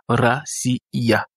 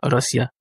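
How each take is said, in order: First: The ending is split into two separate syllables. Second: The ending is squeezed into one syllable. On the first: "le ya ici constitue une syllabe à part entière" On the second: "Il y a d'autres personnes qui prononcent ça racia"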